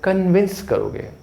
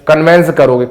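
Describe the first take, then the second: First: The second syllable has an 'i' vowel, 'vins'. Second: The second syllable has an 'e' vowel, 'vens'. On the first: The speaker calls it right. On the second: The speaker calls it wrong. "कन्वेंस नहीं करोगे"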